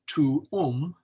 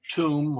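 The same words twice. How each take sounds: First: Tuum drawn out slowly as TU-um; two-syllable tuum. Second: Tomb as one syllable, rhyming with room; single-syllable tuum. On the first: Teacher showing double-letter rule, tuum in two slow syllables. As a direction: split tuum between the two Us. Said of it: "is pronounced". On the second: Teacher showing what to avoid, tomb as one syllable. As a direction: run it together as tomb. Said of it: "not like tomb". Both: Shown as a demonstration.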